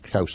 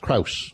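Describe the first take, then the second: First: The name is said without an R sound. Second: The name is said with an R sound. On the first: The speaker calls it wrong. "not Kouse. I don't know why they got the R dropped here" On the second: The speaker calls it right. "It's Kouse"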